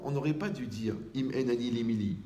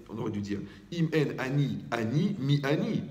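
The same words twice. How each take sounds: First: Said in the usual way. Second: "ani" lifted with a rising tune; stress on ani. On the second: Shown as a demonstration. Rabbi correcting the verse, stressing "ani".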